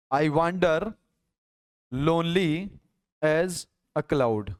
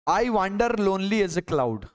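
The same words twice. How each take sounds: First: "I wander", "lonely", "as a cloud" with a pause after each; broken into chunks. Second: Said in the usual way. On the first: Shown as a demonstration. Teacher splitting the line for syllable counting, broken into chunks. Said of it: "इस पूरी line में आठ मात्रा है". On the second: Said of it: "मान लो मैंने एक sentence, अ, लिखा".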